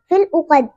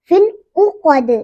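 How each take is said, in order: First: The final d ends without an echoing bounce. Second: The final d ends with a short echoing bounce. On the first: The speaker calls it wrong. "इस तरह नहीं पढ़ेंगे, ये गलत है" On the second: The speaker calls it right. "दाल पे कलकला होगा ... इस तरह"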